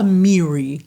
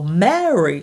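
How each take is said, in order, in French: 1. La première voyelle est un 'ee' fermé. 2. La première voyelle est un 'eh' ouvert. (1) "c'est pas Miri" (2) "c'est d'abord Mary"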